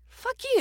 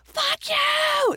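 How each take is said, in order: First: It is said more softly and gently. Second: It is yelled loudly and aggressively. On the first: The anger is toned down. "to a gentle scream" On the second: The anger is at full intensity. "from a yell"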